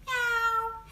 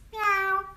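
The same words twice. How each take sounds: First: High mewing meow; Chinese cat meow. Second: High, short mewing meow; a quick kitten mew; Swedish cat meow. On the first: Showing viewers the Chinese cat sound, high mew. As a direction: mew like a kitten. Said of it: "we say". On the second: Showing viewers the Swedish cat sound, short high mew. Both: Shown as a demonstration.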